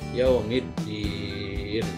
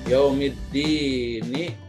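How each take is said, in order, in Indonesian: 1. Kata ini berakhir dengan bunyi n mati. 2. Kata ini berakhir dengan vokal pendek.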